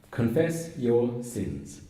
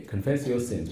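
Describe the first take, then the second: First: "Confess your sins" slow, every word weighted; each word stressed. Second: Said in the usual way. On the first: Shown as a demonstration. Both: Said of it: "By emphasizing each word".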